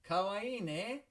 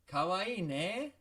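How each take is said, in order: First: It is said brightly and with enthusiasm. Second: The same.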